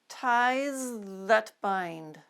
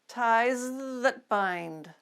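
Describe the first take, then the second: Both takes have the same delivery.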